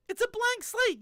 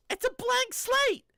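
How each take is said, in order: First: Said in the usual way. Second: Slow high emphasis. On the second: Shown as a demonstration. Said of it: "repeated for emphasis".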